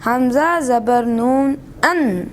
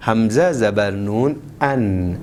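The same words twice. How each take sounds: First: ان with the نون pushed too hard; pressed. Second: ان said gently with no pressure on the نون; no stress on the نون of ان, keep it soft and light; softly. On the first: Real, not acted. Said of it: "یہاں پہ زور نہیں لگانا ہے". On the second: Shown as a demonstration. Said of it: "نرمی کے ساتھ".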